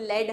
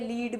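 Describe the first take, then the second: First: The vowel is short, like 'led'. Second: The vowel is long, like 'leed'. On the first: "लेड हम लोग pronounce करते हैं" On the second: "लीड भी बोलते हो तुम उसको"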